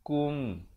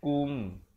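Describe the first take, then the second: No difference in how they are said.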